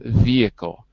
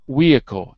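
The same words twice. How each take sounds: First: The first sound is a V sound. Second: The first sound is a W sound. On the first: The speaker calls it right. "instead of vehicle" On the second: The speaker calls it wrong. "Your V's sound like W's. you said vehicle"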